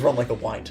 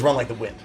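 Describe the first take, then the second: First: The last word sounds like 'wine'. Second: The last word rhymes with 'tinned'. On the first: It was only ever read, never heard. The speaker calls it wrong. "She assumed it was" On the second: This is the usual phrase. The speaker calls it right. "she didn't know it was"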